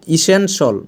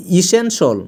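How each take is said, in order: Both takes have the same delivery.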